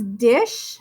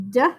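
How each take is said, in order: First: Said in the usual way. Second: "d-ish" split into a short d, pause, long ish; sounded out. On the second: Shown as a demonstration. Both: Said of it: "you can sound out".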